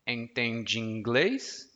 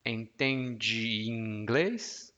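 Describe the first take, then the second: First: "Entende inglês?" slow, pitch climbing on "inglês"; rising question tune. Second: "Entende inglês?" run together very slowly, rising on "inglês"; words run together. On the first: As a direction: lift the voice at the end of "inglês" to ask. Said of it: "raise your intonation". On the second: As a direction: glide "Entende" straight into "inglês" without a break. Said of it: "and pronounced". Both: Shown as a demonstration.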